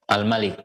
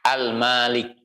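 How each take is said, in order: First: The vowel after the m is short. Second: The vowel after the m is long.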